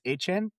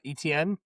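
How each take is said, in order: First: The name sounds like 'ay-chen', two syllables. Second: The name sounds like 'ee-tee-en', three syllables. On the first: This is the name as the player wants it said. The speaker calls it right. "It's A Chain" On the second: This is the easier form people used in college. The speaker calls it wrong. "It's not E T N"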